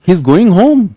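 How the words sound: The voice rises at the end like a question.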